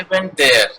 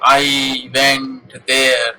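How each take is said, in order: First: The words flow together without any pauses between. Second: Each word is said separately with pauses between. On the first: The speaker calls it right. "fluency is there" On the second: The speaker calls it wrong. "They should not be spoken separately. Like"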